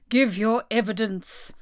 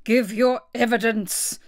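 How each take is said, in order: First: Stern royal order, restrained; lightly voiced king giving an order; commanding king. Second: Slow, stern royal demand; cross king laying down the law; angry. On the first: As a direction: order the witness, without shouting. King's first order to witness. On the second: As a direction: demand it angrily, word by word. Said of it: "the king repeated angrily". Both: A narrator's reading.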